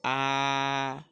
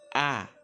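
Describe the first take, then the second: First: It is said with the first tone. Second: It is said with the fourth tone. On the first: "Le premier temps se prononce de façon simple" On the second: "le quatrième et dernier ton, c'est A"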